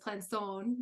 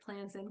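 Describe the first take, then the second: First: The name is pronounced with a French accent. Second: The name is pronounced with an American accent. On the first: This is the original pronunciation of the name. "the way that, you know, it was, it originated was Plançon" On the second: This is the adapted pronunciation the family uses. "we say it Planson because it has been Americanized"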